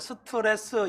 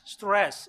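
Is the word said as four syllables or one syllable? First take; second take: four syllables; one syllable. First: It is said as four syllables, each with a vowel. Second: It is said as one syllable with one vowel. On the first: The speaker calls it wrong. "스트레스 이러면 못 알아들어요" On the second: The speaker calls it right. "모음을 내면 안 돼요. 그냥. 스트레스, 스트레스. 이렇게 읽어야 돼요"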